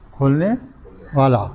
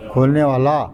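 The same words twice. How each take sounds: First: کھولنے rising, then a pause, then والا falling; split with a pause. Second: Said in the usual way. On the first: Shown as a demonstration. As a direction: break کھولنے and والا apart for the class. (کھولنے اور والا کو وقفے سے الگ الگ)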